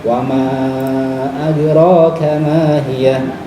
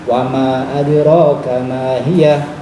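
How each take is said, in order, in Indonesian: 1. Huruf mad itu dibaca lebih panjang. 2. Huruf mad itu dibaca lebih pendek. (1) "boleh lebih panjang lagi"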